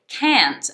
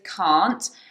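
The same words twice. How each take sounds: First: It is said with an American accent. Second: It is said with a British accent. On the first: "American pronunciation, you can also make this mistake because they say it can't" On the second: "British pronunciation is can't"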